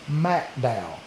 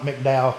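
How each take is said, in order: First: The first syllable has a full 'mack' sound. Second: The first syllable has a reduced 'mick' sound. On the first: The speaker calls it right. "It is MacDowell" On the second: The speaker calls it wrong. "it's not McDowell"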